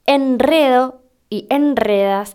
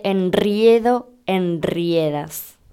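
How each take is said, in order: First: "enredo y enredas" with simple e; correct, no diphthong. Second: "enriedo, enriedas" with ie; drawn-out RRIE in "enriedo, enriedas", falling lower; mistaken diphthong. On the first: Teacher giving correct forms, slow "enredo y enredas" with plain e. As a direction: slowly stress RE in "enredo y enredas". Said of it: "Con enredo pasaba al revés". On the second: Teacher quoting the mistakes, very slow "enriedo, enriedas" with ie. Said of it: "en vez de". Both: Shown as a demonstration.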